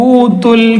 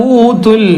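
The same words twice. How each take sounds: No difference in how they are said.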